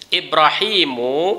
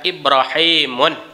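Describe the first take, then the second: First: The word ends in a plain vowel. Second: The word ends with an added n sound. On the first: The speaker calls it right. "Ibrahimu itu isim mufrad" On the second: The speaker calls it wrong. "dia tidak boleh dibaca Ibrahimun"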